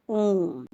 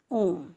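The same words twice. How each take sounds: First: ओम stretched very long and slow, pluta length; chant-like prolonged ओम; drawn-out om. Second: Said in the usual way. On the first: Shown as a demonstration. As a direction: hold the vowel of ओम far beyond normal. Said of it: "इसको हम खींच कर बोलेंगे". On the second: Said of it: "ये लिखा है देखिए".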